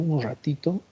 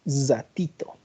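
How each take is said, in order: First: The R is said in a plain, neutral way. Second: The R is much stronger, with a hissing sound. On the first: "En vez que diga un ratito" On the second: "¿Cómo pronuncia la R el paseño? ... Es mucho más pronunciada"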